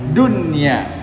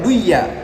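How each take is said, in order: First: The middle n sound is clearly heard. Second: The middle n sound is dropped. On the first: The speaker calls it right. "Harus bacanya dunya" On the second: The speaker calls it wrong. "enggak boleh baca duya"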